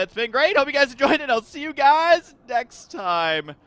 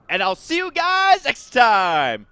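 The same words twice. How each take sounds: First: Outro voice. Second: Slow, louder sign-off; outro voice. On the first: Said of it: "I can't even do it with a straight face". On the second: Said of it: "Nailed it". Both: Acted. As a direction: drag out the goodbye.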